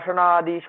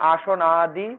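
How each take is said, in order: First: The two words are joined into one word. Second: The two words are said separately, not joined.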